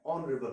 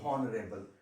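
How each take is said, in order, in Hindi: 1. शब्द सीधे स्वर की आवाज़ से शुरू होता है। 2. शब्द की शुरुआत में एक साफ़ h की आवाज़ है। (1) "ऑनरेबल होता है" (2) "आप लोग तो कभी कभी बोलते हो हॉनरेबल, हॉनरेबल तो होता नहीं"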